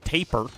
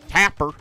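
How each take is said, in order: First: Taper said as TAY-per, rhymes with paper; a long-a TAY-per, set against the right way; wrong way to say tapir. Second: Tapper said TAP-er with a short a, like tap, and louder; a firm, louder TAP-er with a short a, correcting the long-a taper; corrected pronunciation of tapir. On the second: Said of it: "Not taper". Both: Shown as a demonstration.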